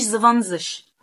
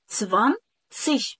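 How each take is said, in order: First: The word begins with a buzzing z sound. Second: The word begins with a voiceless s sound. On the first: The speaker calls it wrong. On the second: The speaker calls it right.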